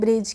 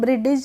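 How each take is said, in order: First: The d is silent, with no separate d sound. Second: The d is sounded separately with an extra vowel. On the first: The speaker calls it right. "तो हम इसको पढ़ेंगे ब्रिज" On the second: The speaker calls it wrong. "नहीं पढ़ेंगे"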